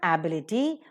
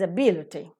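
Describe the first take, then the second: First: The stress is not on the second syllable. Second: The stress is on the second syllable. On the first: The speaker calls it wrong. "It's not ability" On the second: The speaker calls it right. "but it's ability. That's right"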